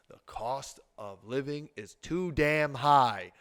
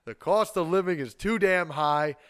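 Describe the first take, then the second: First: Measured and weighty, pausing between phrases; slow, pointed delivery of the key finding; slow, deliberate emphasis. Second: Higher, louder, punching every phrase; forceful, raised-voice insistence; loud emphatic outcry. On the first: Key finding, said slowly then repeated louder. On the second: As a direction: hammer it home at full voice. Repeats key finding more forcefully. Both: Real, not acted.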